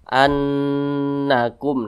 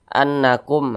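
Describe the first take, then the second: First: The nasal nn sound is held long. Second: The nasal nn sound is short. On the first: The speaker calls it right. "kita panjangkan seperti itu" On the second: The speaker calls it wrong. "jangan seperti ini ... tidak digunnahkan, maka itu kurang tepat"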